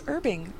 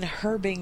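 First: The word begins with a vowel, h silent. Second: The word begins with an audible h sound. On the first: The speaker prefers this pronunciation. "No, it's herbing. The H is silent" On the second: Another person prefers this pronunciation. "MacGyver says you mean herbing"

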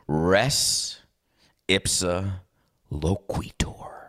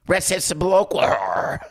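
First: It is said formally, in a grand tone. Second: It is said casually, in a plain tone.

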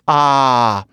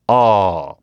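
First: The vowel is an unrounded 'ah' sound. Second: The vowel is a rounded 'aw' sound. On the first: "For many people, ... you go" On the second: "for me, ... I would go"

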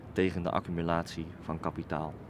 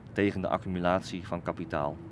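The two takes are said the same way.

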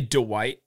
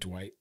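First: The name is stretched into two syllables. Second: The name is said as one syllable. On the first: This is how the other host says it. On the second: This is the usual way to say it.

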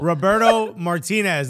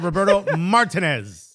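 First: The name is said with Spanish pronunciation. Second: The name is said with English pronunciation. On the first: The speaker calls it right. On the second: The speaker calls it wrong.

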